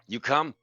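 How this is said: The voice rises at the end like a question.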